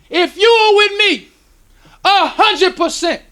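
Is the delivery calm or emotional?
emotional. It is said with strong emotion.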